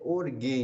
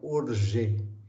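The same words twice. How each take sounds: First: The g is a hard sound, as in 'go'. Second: The g is a soft sound, like 'zh'. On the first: The speaker calls it right. "A pronúncia correta é orge" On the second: The speaker calls it wrong. "não orge"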